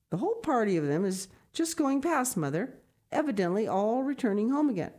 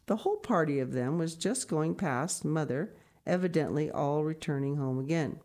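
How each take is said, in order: First: Raised, higher woman's voice telling news; Brigitte's announcement. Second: Said in the usual way. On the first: Acted. Brigitte announcing the party to her mother. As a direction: call the news in to the old mother. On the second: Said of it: "reads it again as Brigitte's quote".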